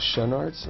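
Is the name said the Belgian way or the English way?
English. The name is said with an English pronunciation. "I don't know, Schoenaerts or something?"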